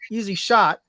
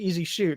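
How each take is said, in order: First: The second word has a short 'o' vowel. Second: The second word has a long 'oo' vowel. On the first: The speaker calls it wrong. "I'd mispronounced their name. I was I was I was pr- calling it Easy Shot" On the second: The speaker calls it right. "it's actually Easy Shoot"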